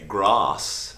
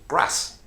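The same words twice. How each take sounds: First: The vowel in grass is long. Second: The vowel in grass is short. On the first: This is how an elf speaks. "an elf would say grass" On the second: This is how a Southlander speaks. "The A sounds are short, ... a Southlander would say grass"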